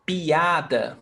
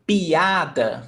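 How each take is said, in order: Both takes have the same delivery.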